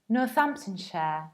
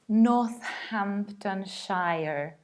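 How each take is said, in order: First: The 'ham' and 'shire' parts are reduced. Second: The 'ham' and 'shire' parts are fully pronounced. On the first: The speaker calls it right. "It's pronounced like Northamptonshire" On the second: The speaker calls it wrong. "which is not Northamptonshire"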